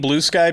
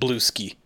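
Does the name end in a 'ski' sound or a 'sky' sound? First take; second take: sky; ski. First: The name ends with a 'sky' sound. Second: The name ends with a 'ski' sound. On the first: "I don't like the name Blue Sky" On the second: "I pronounce it Blueski"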